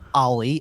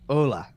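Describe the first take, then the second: First: The name sounds like Ollie. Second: The name sounds like Ula. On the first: The speaker calls it wrong. "it is not Ollie" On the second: The speaker calls it right. "Apparently, it's like Ula"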